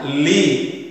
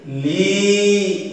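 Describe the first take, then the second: First: The vowel is short. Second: The vowel is long. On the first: "maka dibacanya pendek" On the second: "ya sukunnya adalah dipanjangkan"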